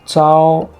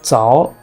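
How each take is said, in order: First: The pitch stays high and level. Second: The pitch rises from middle to high. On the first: "First tone" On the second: "Second tone"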